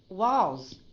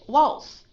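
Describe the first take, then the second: First: It ends in a long, low, voiced Z sound. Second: It ends in a short, voiceless S sound. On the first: The speaker calls it right. "Did you hear that little that long duration with the Z?" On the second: The speaker calls it wrong. "Instead of waltz"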